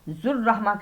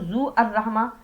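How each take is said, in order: First: The two words are joined into one unit. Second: The two words are said separately. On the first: The speaker calls it right. "जुर्रहमा करके पढ़ना है इसे" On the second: The speaker calls it wrong. "ऐसे नहीं पढ़ना"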